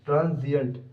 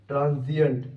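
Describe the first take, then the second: No difference in how they are said.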